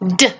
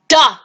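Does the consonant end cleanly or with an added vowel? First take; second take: clean; added vowel. First: The consonant ends cleanly with no vowel. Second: The consonant is followed by an uh vowel. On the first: The speaker calls it right. "this phonogram sound is going to be D" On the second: The speaker calls it wrong. "It's not duh"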